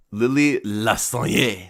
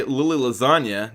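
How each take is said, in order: First: Lasagne drawn out, ending in a stressed "yay"; mock-fancy pronunciation. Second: Said in the usual way. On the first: Shown as a demonstration. Host fixing a listener's name, Lasagne as slow "la-sahn-YAY". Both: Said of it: "No, wait".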